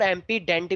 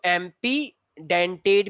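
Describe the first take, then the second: First: "एम्पीडेंट" ending straight on -ḍenṭ; shorter variant pronunciation. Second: "एम्पीडेंटेड" with a final "-tate" syllable; longer variant pronunciation. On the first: Teacher showing what some people say, short "एम्पीडेंट". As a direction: say "एम्पीडेंट" without the extra final syllable. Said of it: "कुछ लोग बोलते हैं". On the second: Teacher showing students an allowed variant, "एम्पीडेंटेड" with added final syllable. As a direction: say "एम्पीडेंटेड" ending in an extra -ṭeṭ. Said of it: "भी बोल सकते हो". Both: Shown as a demonstration.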